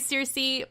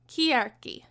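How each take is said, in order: First: The name is said with an English pronunciation. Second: The name is said with a Greek pronunciation. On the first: This is how the name is usually said nowadays. "we're going to say Circe" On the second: This is how the name is said in Greek. "the Greek pronunciation of Circe"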